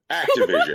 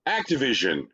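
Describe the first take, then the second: First: High, loud, put-on Activision; ominous announcer. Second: Said in the usual way. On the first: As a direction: boom out the name like a threat. Repeated sponsor name, put-on voice.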